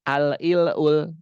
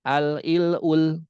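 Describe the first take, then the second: Both takes have the same delivery.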